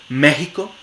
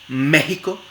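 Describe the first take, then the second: The two takes are said the same way.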